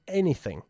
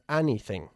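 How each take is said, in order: First: The first vowel sounds like an 'e'. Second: The first vowel sounds like an 'a'. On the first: The speaker calls it right. "como si se escribiese con una E" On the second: The speaker calls it wrong. "no se pronuncia anything"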